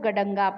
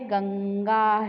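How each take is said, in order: First: An extra 'da' sound comes before the nasal. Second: The nasal joins directly to the following 'ga'. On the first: The speaker calls it wrong. "इसको गडंगा पढ़ेंगे" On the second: The speaker calls it right. "गडंगा नहीं है, वो क्या है, गंगा है"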